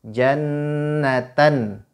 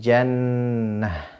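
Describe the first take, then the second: First: The word ends in an n sound. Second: The word ends in an h sound. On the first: This is the full form without stopping. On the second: The reader stops on this word.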